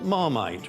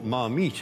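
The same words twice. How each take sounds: First: It is pronounced the English way. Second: It is pronounced the French way.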